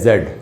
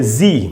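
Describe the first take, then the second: First: The letter is said as zed. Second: The letter is said as zee. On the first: "British English में बोलते हैं जेड" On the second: "American इसको बोलते हैं जी"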